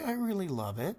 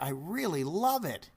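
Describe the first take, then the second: First: It is said hesitantly, without conviction. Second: It is said with enthusiastic exclamation. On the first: The words do not match the real feeling. The speaker calls it wrong. "the tonality does not match the words" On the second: The words match the real feeling. The speaker calls it right. "Exclamation mark"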